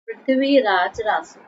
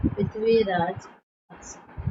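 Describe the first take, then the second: First: Said in the usual way. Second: Prithviraj Raso said slowly, each syllable drawn out; slow dictation. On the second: Shown as a demonstration. Teacher repeating the book name to students, slowly. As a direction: stretch Prithviraj Raso for the notebook.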